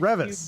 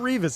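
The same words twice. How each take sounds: First: The first vowel is not an ee sound. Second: The first vowel is a long ee sound. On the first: The speaker calls it right. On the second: The speaker calls it wrong. "It's not Revis"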